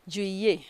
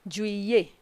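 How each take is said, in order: Both takes have the same delivery.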